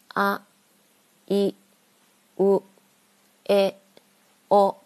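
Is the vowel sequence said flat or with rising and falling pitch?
flat. The vowels are said on a flat, even pitch.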